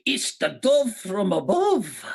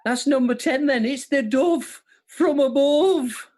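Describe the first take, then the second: First: Slow, higher Scottish catchphrase; put-on Scottish impression; Scottish accent. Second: High, drawn-out Birmingham catchphrase; sing-song Brummie, pitched well up; exaggerated Birmingham impression; Brummie accent. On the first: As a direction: stretch it out in a comic Scottish accent. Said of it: "again in a Scottish accent". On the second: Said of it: "didn't know I was doing Brummie".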